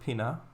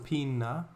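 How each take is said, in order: First: The n sound is short and plain. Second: The n sound is held longer.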